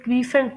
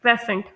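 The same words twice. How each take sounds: First: क्रीसेंट with a long "ee", like kree-sent; the common error क्रीसेंट; wrong crescent. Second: क्रेसेंट with a short "e", like kress-ent; the correct क्रेसेंट; correct crescent. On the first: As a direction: say क्रीसेंट the mistaken way. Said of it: "जिसे लोग क्रीसेंट pronounce करते हैं". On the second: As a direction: say क्रेसेंट the right way. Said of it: "इसे pronounce किया जाता है". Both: Shown as a demonstration.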